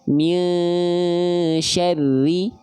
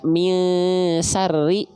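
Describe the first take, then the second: First: The middle consonant is a 'sh' sound. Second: The middle consonant is an 's' sound. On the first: The speaker calls it right. "yang harusnya kita baca" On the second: The speaker calls it wrong. "teman-teman baca misarri, ... hurufnya salah"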